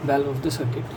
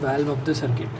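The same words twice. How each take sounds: The two takes are said the same way.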